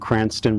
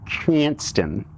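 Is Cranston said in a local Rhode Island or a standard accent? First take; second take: standard; local. First: It is said in a plain, standard accent. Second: It is said in a strong local Rhode Island accent.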